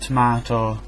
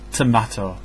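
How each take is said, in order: First: The middle syllable sounds like 'mart'. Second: The middle syllable sounds like 'mat'. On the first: The speaker calls it wrong. "it's not mart" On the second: The speaker calls it right. "it's mat"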